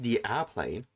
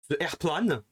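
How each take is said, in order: First: It is said with an English accent. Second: It is said with a French accent.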